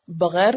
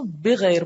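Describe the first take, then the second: First: بغیر said the Urdu way, baghair, with an open a after b; Urdu pronunciation. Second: بغیر said the Arabic way, bighair, with a short i after b; Arabic pronunciation. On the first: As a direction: say بغیر as ba-ghair, Urdu style. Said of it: "ہم اس کو بغیر پڑھتے ہیں". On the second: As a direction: say بغیر as bi-ghair, Arabic style. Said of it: "عربی میں اس کو بغیر پڑھتے ہیں". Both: Shown as a demonstration.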